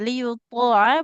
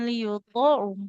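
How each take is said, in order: First: The word ends with an a vowel. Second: The word ends with a u vowel. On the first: The speaker calls it right. "ainnya dia fathah" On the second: The speaker calls it wrong.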